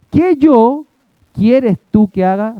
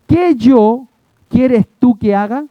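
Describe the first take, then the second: First: Teacher hammering the word "yo" first; stress on YO. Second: "yo" lifted a little, rest even; "yo" slightly stressed, the rest of "quieres tú que haga" level. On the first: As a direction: punch "yo" hard in "¿Qué yo quieres tú que haga?". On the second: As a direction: lean lightly on "yo" in "¿Qué yo quieres tú que haga?". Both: Shown as a demonstration. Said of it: "La palabra que va primero está enfatizada".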